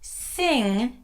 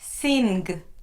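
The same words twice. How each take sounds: First: It ends in one nasal sound without a G. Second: It ends in an N followed by a G. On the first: The speaker calls it right. "a word like sing" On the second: The speaker calls it wrong. "is not sing. There is no N and then a G sound"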